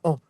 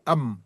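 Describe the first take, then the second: First: The vowel is nasal with no final M. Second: The M is clearly pronounced at the end. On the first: The speaker calls it wrong. "c'est pas an" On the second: The speaker calls it right. "il faut prononcer le même à la fin"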